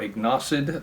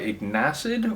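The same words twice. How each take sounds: First: The name is said with Spanish-style pronunciation. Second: The name is said with English 'acid' emphasized. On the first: "a more typical Spanish pronunciation" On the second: "to emphasize acid"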